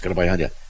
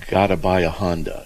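First: The phrase is said very quickly. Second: The phrase is said at a normal speed.

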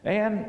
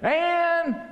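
First: The name is said at normal volume. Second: The name is called out loudly.

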